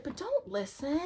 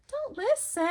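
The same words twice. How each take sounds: First: Said in the usual way. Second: "Don't listen" jumped much higher, hitting "Don't"; emphatic repeat. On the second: Shown as a demonstration. Telling viewers firmly to ignore the ego, "Don't" pitched high. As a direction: land hard on "Don't" in "Don't listen".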